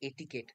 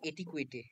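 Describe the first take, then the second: First: The word ends in a short 'ket' sound. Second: The word ends in a drawn-out 'kwetay' sound. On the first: The speaker calls it right. "এটার উচ্চারণটা হচ্ছিল এটিকেট" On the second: The speaker calls it wrong. "আমি তার আগে পড়তাম এটিকুয়েটে"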